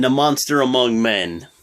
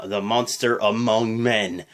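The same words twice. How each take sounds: First: Said in the usual way. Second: Slow, low announcer billing; announcer-style "the monster among men"; ring announcer. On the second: Retold or imitated. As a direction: stretch out "monster" like an arena intro. Announcer take vs recap.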